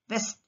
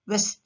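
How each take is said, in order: First: "వెస్ట్" with a clear V onset; V sound. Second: "వెస్ట్" as west, lips rounded; "వెస్ట్" with lips pushed forward; W sound. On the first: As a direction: start "వెస్ట్" with V. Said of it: "వి sound ఎలా వస్తుంది?". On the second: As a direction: start "వెస్ట్" with W. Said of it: "mouth shape changes". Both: Shown as a demonstration.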